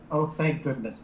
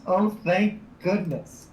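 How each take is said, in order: First: Said in the usual way. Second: "Oh, thank goodness" slow and higher, each word leaned on; emphatic relief. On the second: Real, not acted. Player relieved at the cards drawn, emphatic relief.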